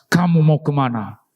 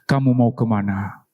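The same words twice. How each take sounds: First: It is said at a louder volume. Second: It is said at a softer volume.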